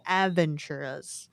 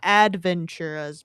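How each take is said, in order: First: No 'd' sound comes before the 'v'. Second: A 'd' sound comes before the 'v'. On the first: The speaker calls it right. "but Aventuras" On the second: The speaker calls it wrong. "not Adventuras"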